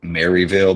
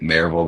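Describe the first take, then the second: First: The name is said in a standard way. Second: The name is said in a Southern way. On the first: "It's called" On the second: "we we pronounce it Maryville because, you know, from the South"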